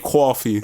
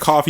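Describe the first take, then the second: First: It is said with a New York accent. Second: It is said with a general American accent. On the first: "you say coffee with a New York accent" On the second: "you never say coffee"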